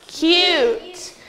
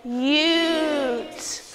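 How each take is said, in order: First: Said in the usual way. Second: "Cute" stretched sound by sound, drawn out; teacher stretching cute for the class; sounded out slowly. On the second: Shown as a demonstration. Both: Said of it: "let's sound it out".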